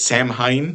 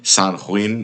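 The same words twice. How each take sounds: First: It is said in the speaker's anglicized pronunciation. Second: It is said in a Celtic-style pronunciation. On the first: "I say it's Samhain" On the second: "more properly pronounced something like Samhain"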